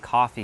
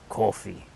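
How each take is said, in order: First: It is said in a plain, non-Brooklyn accent. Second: It is said in an imitated Brooklyn accent. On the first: "He didn't say coffee" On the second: "a Brooklyn person say uh, say coffee"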